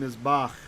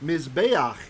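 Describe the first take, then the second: First: The second syllable has a short 'a' vowel. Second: The second syllable has a long 'e' vowel. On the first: The word is bound to the following noun. "this became Mizbach... the tseri reduced to a short vowel, patach" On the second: It is the usual standalone form of the word. "Mizbeach is how we usually say altar"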